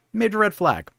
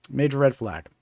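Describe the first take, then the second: First: Major red flag said higher with stress on red; emphatic warning. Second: Said in the usual way. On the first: Shown as a demonstration. Vlogger warning viewers about fake job texts, emphatic. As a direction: hit red hard like a warning bell.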